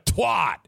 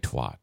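First: The TW and final T are hit hard. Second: The consonants are said softly and weakly. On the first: The speaker calls it right. "You got to hit the TW hard and then finish with a strong T" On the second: The speaker calls it wrong. "You can't say twat"

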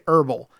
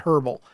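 First: It is said in an American accent, h silent. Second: It is said in a British accent, h pronounced.

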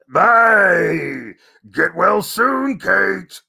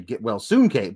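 First: It is said in an exaggerated crazy voice. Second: It is said in his own natural voice.

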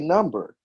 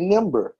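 First: The first vowel is the usual 'uh' sound. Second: The first vowel is an 'ih' sound. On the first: This is the standard way of saying it. "You don't say number" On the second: This is how the mother says it in her dialect. "you say nimber"

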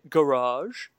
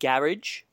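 First: It is said with an American pronunciation. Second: It is said with a British pronunciation.

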